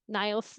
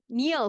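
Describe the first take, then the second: First: The name is said with an 'eye' vowel. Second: The name is said with an 'ee' vowel. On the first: The speaker calls it wrong. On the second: The speaker calls it right.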